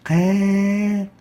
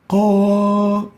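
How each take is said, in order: First: The vowel is light and thin. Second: The vowel is heavy and full-mouthed. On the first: The speaker calls it wrong. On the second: The speaker calls it right. "Similar for the Qaf"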